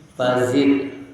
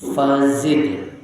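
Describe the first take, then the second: The two takes are said the same way.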